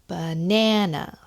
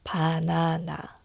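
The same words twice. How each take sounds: First: The stress is on the second syllable. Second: All syllables have equal stress. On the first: "So the stress is on the second syllable" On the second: "because of the um, equal stress"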